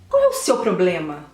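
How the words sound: It is said in an aggressive, forceful tone.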